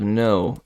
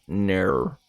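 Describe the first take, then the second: First: Said in the usual way. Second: Australian "ner", vowel drawn into an r-coloured "air"; Australian accent. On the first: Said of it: "instead of no, it's ner". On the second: Shown as a demonstration. Streamer demonstrating an Australian no for chat, Australian accent. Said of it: "favorite thing about the Australian accent".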